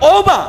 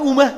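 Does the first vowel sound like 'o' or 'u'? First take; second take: o; u. First: The first vowel sounds like 'o'. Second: The first vowel sounds like 'u'. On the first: The speaker calls it right. "এটা হবে কি ওমা।" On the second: The speaker calls it wrong. "আমরা বলি উমা, বলি না?"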